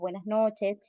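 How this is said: It is said in a calm, warm tone.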